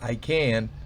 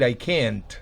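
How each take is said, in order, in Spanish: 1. La vocal se alarga y la T final es muda. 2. La T final se suelta claramente con un chasquido. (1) "simplemente extiendo la I can y la T no la tengo que chasquear" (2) "No tengo que decir I can't"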